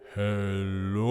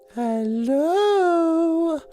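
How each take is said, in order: First: It is said in a deep baritone voice. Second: It is said in a high falsetto voice.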